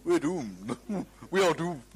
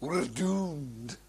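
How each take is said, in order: First: Mock-gloomy English voice; understated English version of the doom cry, with a chuckle; English accent. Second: Doom-laden Scotsman impression; mock-tragic Scottish catchphrase; Scottish accent. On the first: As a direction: imitate an English doomsayer. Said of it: "might be English people saying". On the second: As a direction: say it as a gloomy Scot, in a Scottish accent. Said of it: "a certain Scotsman saying".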